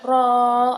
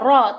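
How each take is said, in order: First: The vowel is drawn out long with no n. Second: The vowel is short with no final n. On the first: The speaker calls it wrong. "dipanjangkan ro" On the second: The speaker calls it right. "Jadi harus ro, ro ya ro"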